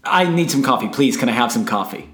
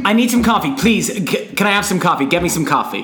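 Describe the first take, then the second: First: First coffee take. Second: Pushier coffee take. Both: Pretend. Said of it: "a different way".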